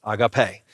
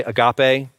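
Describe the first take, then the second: First: "agape" as ah-gah-PAY; "agape" carefully corrected to ah-gah-PAY; correct Greek pronunciation. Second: "agape" as uh-GAH-pay; "agape" the common wrong way, uh-GAH-pay; mispronounced Greek. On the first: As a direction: say "agape" with a full ah at the start. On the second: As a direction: say "agape" with a weak uh at the start. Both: Shown as a demonstration. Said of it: "That's not how you pronounce it".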